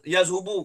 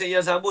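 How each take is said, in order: First: The vowel after the h sound is u. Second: The vowel after the h sound is a. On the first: The speaker calls it wrong. "Sebab apa tak boleh baca" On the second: The speaker calls it right. "Kenapa kena baca"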